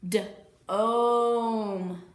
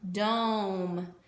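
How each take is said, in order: First: "d-ome" split into d and a long stretched oh; sounded out long O. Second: Said in the usual way. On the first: Shown as a demonstration. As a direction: stretch the oh in "d-ome" after a separate d. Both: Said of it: "you are going to hear the long O sound".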